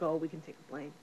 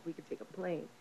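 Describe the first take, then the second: First: Said in the usual way. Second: Much softer, like a thought repeating inside her head; the line she keeps replaying to herself, murmured soft; echo in her mind. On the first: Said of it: "they're sitting around smoking ... they're like". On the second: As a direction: drop it to a faint inner echo. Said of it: "she keeps repeating that in her mind".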